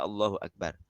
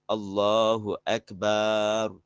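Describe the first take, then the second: First: The vowel after b in Akbar is short. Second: The vowel after b in Akbar is long.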